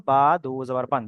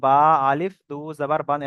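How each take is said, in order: First: Said in the usual way. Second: "আলিফ" wrongly spoken aloud between বা and দু জাবার; wrongly voiced alif. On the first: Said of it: "এখানে আমরা শুধু simple বলবো". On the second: Shown as a demonstration. Teacher showing students the form to avoid, alif voiced. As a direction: spell out "আলিফ" after a long বা. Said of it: "এরকম বলবো না".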